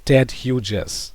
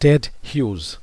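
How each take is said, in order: First: Hughes is said with two syllables. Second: Hughes is said with one syllable. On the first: The speaker calls it wrong. "Don't say Ted Hughes. ... এই হিউজকে হিউজেস বলবে না, it is not disyllabic" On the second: The speaker calls it right. "but this is one syllable, right?"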